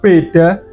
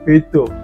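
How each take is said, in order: First: Clear b and d, ending in 'a'. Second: Softer b and d, ending in 'o'. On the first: "huruf B dan D-nya itu dibaca dengan jelas. Dan A ya tetap A" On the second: "A-nya menjadi O dan B dan D-nya nggak terlalu jelas"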